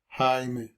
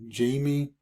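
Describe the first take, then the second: First: The name is said with a Spanish pronunciation. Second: The name is said with an English pronunciation. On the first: The speaker calls it right. "it's how you pronounce it in Spanish" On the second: The speaker calls it wrong. "a lot of people tend to think my name is Jamie"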